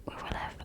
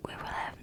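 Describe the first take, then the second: No difference in how they are said.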